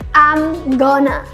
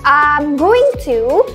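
First: Going to is squeezed into one short word. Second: Going to is said as two full words. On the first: "teman-teman bisa ganti dengan I'm gonna" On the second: "instead of saying I'm going to"

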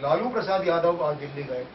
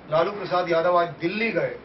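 First: The stress falls on the name Lalu. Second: The stress falls on the word Dilli. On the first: Lalu went, not some other politician. "यानी अटल बिहारी वाजपेयी नहीं गए, सोनिया नहीं गई" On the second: He went to Delhi, not to another place. "Jhumri तलैया नहीं गए, परतवाड़ा नहीं गए"

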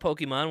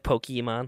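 First: The E after the K is silent. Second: The E after the K is pronounced. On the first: The speaker calls it wrong. "I used to call it Pokemon when I was probably younger" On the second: The speaker calls it right. "like with the E, emphasis on the E"

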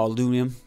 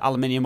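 First: It is said with an American pronunciation. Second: It is said with a British pronunciation.

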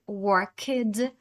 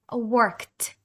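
First: The ending is not a plain t sound. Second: The ending is a plain t sound. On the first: The speaker calls it wrong. "Не потрібно читати worked" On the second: The speaker calls it right. "Коли ж ми маємо читати «ти»? ... Worked"

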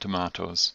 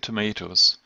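First: It is said with a British accent. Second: It is said with an American accent.

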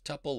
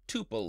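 First: It rhymes with the end of quintuple. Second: It rhymes with the end of quadruple. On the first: "tuple like quintuple" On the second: "or tuple like quadruple"

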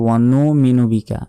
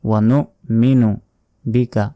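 First: The glottal stop before minu is dropped. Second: A glottal stop is pronounced before minu. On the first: The speaker calls it wrong. "অনেকে বলি ওয়ানুমিনু বিকা ... হামজার উচ্চারণ কিন্তু আমরা বাদ দিয়ে দিলাম" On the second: The speaker calls it right. "বলতে হবে ওয়ানো মিনু"

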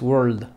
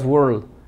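First: The final D sound is audible. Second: The final D sound is dropped. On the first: The speaker calls it right. "Y al final debe sonar la D" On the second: The speaker calls it wrong. "No digas world"

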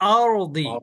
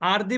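First: The r is pronounced heavy and full. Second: The r is pronounced light and thin. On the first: The speaker calls it right. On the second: The speaker calls it wrong.

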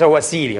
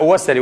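First: The word is said with a long ee vowel. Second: The word is said without a long ee vowel. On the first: The speaker calls it wrong. "وليس وسيلي، غلط هذا" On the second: The speaker calls it right. "النسبة إلى وسيلة وسلي"

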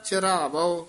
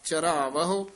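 First: The word ends in a plain o sound. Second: The word ends in a heavier ahu sound. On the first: The speaker calls it wrong. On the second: The speaker calls it right. "ਭਾਰਾ ਪਦ ਉਚਾਰਨ ਕਰਨਾ"

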